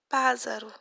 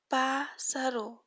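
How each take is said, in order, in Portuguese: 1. A consoante do meio é um som de z, como um zumbido. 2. A consoante do meio é um som de s sibilante. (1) "Se nós pegarmos e colocar apenas um S, fica pássaro. Fica errada a palavra" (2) "eu quero que ele tenha som de si, não de Z"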